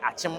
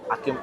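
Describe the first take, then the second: First: The middle consonant is a ch sound. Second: The middle consonant is a hard k sound. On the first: This is the name as locals really say it. The speaker calls it right. "but e di na ankasa ye achim" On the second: This is the form outsiders use for the name. The speaker calls it wrong. "no mo ye no akim akim"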